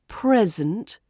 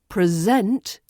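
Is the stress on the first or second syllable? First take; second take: first; second. First: The stress is on the first syllable. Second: The stress is on the second syllable.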